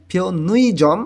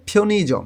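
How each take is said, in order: First: ফিওনুইজম drawn out slowly with a full উই glide; slow, deliberately wrong ফিওনুইজম; wrong pronunciation. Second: ফিওনিজম said with a short ই in the middle, not উই; the right Korean sound ফিওনিজম, no উই glide; correct pronunciation. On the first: Teacher demonstrates the mistake to avoid: slow ফিওনুইজম. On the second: Teacher shows students the right way: ফিওনিজম with a short ই. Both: Shown as a demonstration. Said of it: "এরকম উচ্চারণ করলে ভুল হবে".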